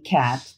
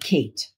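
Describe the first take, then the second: First: The word has a short A vowel. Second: The word has a long A vowel. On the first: The speaker calls it right. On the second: The speaker calls it wrong.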